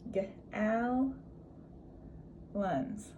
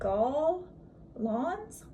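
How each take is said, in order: First: The second syllable has a reduced vowel. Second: The second syllable has a full vowel. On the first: The speaker calls it right. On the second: The speaker calls it wrong. "that's not right"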